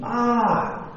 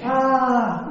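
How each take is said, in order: First: Higher, drawn-out "aah" of pain; hammed-up yell of a hurt boy, not loud; mock scream. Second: High, drawn-out "aah" echoing back; mock echoed yell. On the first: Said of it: "He screamed really loud". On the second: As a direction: imitate a mountain echo of a scream. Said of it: "yelling back".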